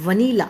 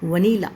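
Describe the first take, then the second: First: The first syllable is a short vuh. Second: The same.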